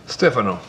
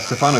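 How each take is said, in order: First: The name is pronounced in an Italian way. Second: The name is pronounced in an American way. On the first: "It's um Italian way. It's a correct way to say it" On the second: "It's like the American way to pronounce it, so it's fine too"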